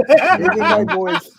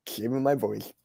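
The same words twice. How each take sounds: First: Loud, slow, laughing through the words; laughing loudly. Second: Softer, a bit lower, held back; quiet. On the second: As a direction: say it quietly, sparing the voice. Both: Pretend.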